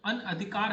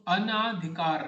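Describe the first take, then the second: First: अनअधिकार said with a short a after na; correct form. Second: अनाधिकार said slowly, with a long aa after na; wrong spelling said aloud. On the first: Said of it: "अनधिकार होता है". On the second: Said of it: "तो अनाधिकार नहीं होता". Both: Shown as a demonstration.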